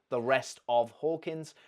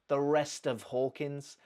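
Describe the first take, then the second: First: The word 'of' ends with a v sound. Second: The word 'of' ends with an f sound. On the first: "So she's lost that v" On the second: "She hasn't put a f"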